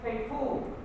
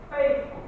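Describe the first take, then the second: First: The stress falls on an unexpected syllable. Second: The stress falls on the usual syllable. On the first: The speaker calls it wrong. "You don't say faithful" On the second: The speaker calls it right. "You say faithful"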